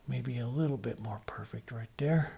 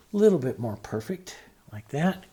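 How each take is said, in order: First: Softer, whispered to himself. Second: Said in the usual way. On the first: Real, not acted. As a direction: breathe it out under your breath while painting. Painter murmuring while stroking collar.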